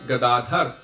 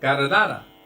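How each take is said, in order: First: The final vowel is dropped, Hindi style. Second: The d sounds are said like r, Italian style. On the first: "in Hindi it's" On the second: "in Italian it's"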